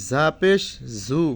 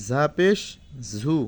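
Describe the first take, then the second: No difference in how they are said.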